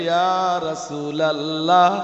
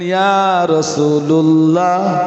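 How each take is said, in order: First: The vowel after 'Rasul' is 'a'. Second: The vowel after 'Rasul' is 'u'. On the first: The speaker calls it right. "তখন আপনাকে পড়তে হবে ইয়া রাসূলাল্লাহ" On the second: The speaker calls it wrong. "রসুলের লামে আর পেশ পড়তে পারবেন না"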